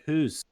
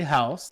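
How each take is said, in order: First: "who's" with a long oo, ending in s; "who's" rhyming with moose; Canadian "hoose". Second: Said in the usual way. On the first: Shown as a demonstration. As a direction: say "who's" as mock Canadian house. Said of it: "Canadians say who's". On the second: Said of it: "the correct way".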